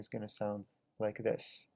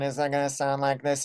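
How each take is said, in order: First: The voice is quieter, dynamic and lightly compressed. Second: The voice is loud, flat and heavily compressed. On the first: "less compression" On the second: "More compression"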